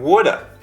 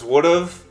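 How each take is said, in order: First: The words blend into one, ending in 'uh'. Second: Both words are said fully and separately. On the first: "would have becomes would have and woulda"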